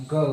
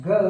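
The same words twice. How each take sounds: First: American go. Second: British go. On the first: Teacher contrasting British and American, American go. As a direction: go with an American long o, like goh. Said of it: "American English में". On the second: Teacher contrasting British and American, British go. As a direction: go with a British au glide, like gau. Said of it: "British English में". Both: Shown as a demonstration.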